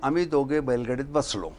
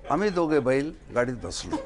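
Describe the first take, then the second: First: It is said smoothly without a pause. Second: There is a pause after बैल.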